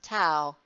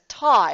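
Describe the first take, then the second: First: The word is said the common way. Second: The word is said the fancier way. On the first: This is how many people say it. "some might pronounce it tau" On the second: This version sounds fancier. "we were sure to pronounce it ta because that sounded fancier"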